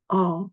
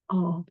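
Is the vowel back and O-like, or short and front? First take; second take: back; back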